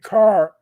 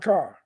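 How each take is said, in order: First: The r sound at the end is pronounced. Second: The r sound at the end is dropped. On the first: "instead of saying car" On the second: "There's the R-lessness"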